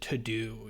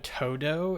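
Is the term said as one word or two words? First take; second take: two words; one word. First: It is said as two separate words. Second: It is said as one running word. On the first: It sounds boring. The speaker calls it wrong. "it gets so boring when you pronounce it to do" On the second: It sounds fun, like the Spanish word for all. The speaker calls it right. "when you make it all one word like this"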